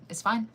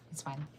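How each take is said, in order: First: Tense fine. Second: Soft, dropped, giving up; quiet resigned fine. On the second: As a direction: say it low to yourself, letting go. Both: Real, not acted.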